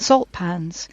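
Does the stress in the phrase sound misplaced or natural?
natural. The stress falls where it normally would. A person would say it this way. The speaker calls it right. "rather than"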